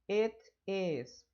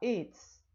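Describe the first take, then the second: First: Two separate words are said in full. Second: The words are shortened into one syllable.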